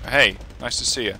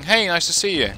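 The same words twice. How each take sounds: First: The greeting sounds offhand and insincere. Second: The greeting sounds warm and sincerely interested. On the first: The speaker does not really care about seeing the person. "it's more feigned, it's more random" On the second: The speaker is truly glad to see the person. "In the first way, you'd actually be genuinely interested in seeing this person"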